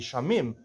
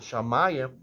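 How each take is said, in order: First: The word is said with two syllables. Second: The word is said with three syllables. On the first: This is how the written text would read plainly. "According to the simple explanation, it should be" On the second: This is the traditional pronunciation. "we pronounce it"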